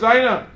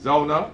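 First: The first vowel is an oi diphthong. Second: The first vowel is a plain o sound. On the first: "it's really a Yiddish term" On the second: "The Balkaris don't speak with an oi. They pronounce it properly"

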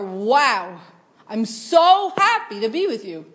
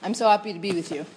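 First: It is said with excitement and passion. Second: It is said flatly, without passion.

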